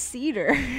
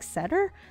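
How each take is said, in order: First: The first vowel is a long 'ee' sound. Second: The first vowel is a short 'eh' sound. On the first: The speaker calls it right. "If it's cheater, then it's cedar" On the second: The speaker calls it wrong. "it makes me use the short eh sound"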